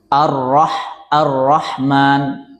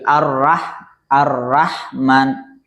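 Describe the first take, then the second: First: The r sound is heavy and thick. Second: The r sound is light and thin. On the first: The speaker calls it wrong. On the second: The speaker calls it right. "harusnya ditipis ... Jadi tipis"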